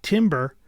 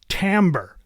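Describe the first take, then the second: First: The word is given its common spelling-based misreading. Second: The word is given its accepted standard pronunciation. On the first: The speaker calls it wrong. "it is not timbre" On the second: The speaker calls it right. "That's pronounced timbre"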